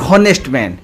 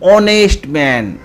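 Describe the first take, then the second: First: The word begins with an audible h sound. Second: The word begins with a vowel, no h sound. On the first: The speaker calls it wrong. "Not ହନେଷ୍ଟ man" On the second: The speaker calls it right. "ଆମେ ଏଠି ଅ ପଢ଼ୁଛେ"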